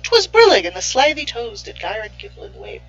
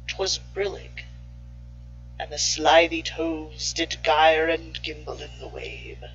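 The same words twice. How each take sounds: First: It is said in a lighthearted voice. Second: It is said in a sinister voice.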